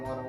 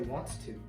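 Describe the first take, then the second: First: The words are blended into one reduced word. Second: Both words are said separately and fully. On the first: The speaker calls it right. "they say wanna" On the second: The speaker calls it wrong. "people don't say wants to"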